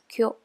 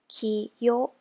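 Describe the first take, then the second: First: The word is blended into one syllable. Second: The word is split into two syllables. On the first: The speaker calls it right. "becomes kyo" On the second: The speaker calls it wrong. "Kiyo becomes"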